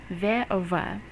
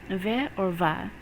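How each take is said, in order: No difference in how they are said.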